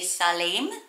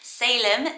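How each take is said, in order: First: The first vowel is short, the second long. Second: The first vowel is long, the second short. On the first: The name means peace or safety. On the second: The name is a place name.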